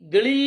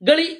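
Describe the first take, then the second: First: The final vowel is held long. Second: The final vowel is cut short. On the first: "ದೀರ್ಘವನ್ನ" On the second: "ಹ್ರಸ್ವ"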